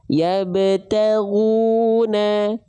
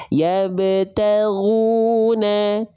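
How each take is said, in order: The two takes are said the same way.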